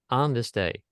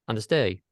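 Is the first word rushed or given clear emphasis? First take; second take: emphasized; rushed. First: The word "on" is said clearly with emphasis. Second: The word "on" is rushed through quickly.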